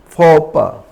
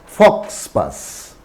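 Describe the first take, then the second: First: The x and s sounds are left silent. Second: The x and s sounds are clearly pronounced. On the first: The speaker calls it right. "S is silent" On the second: The speaker calls it wrong. "It's not fox pass"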